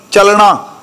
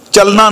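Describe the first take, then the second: First: ਚੱਲਣਾ said with a retroflex ਣ, tongue curled back; correct pronunciation. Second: ਚੱਲਣਾ said with a plain dental n sound, the wrong way; wrong pronunciation. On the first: Preacher teaching the congregation the correct ਚੱਲਣਾ, with a retroflex ਣ. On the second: Preacher showing the congregation the wrong ਚੱਲਣਾ, with a dental n. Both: Shown as a demonstration. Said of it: "ਨੰਨੇ ਨਾਲ ਨਹੀਂ".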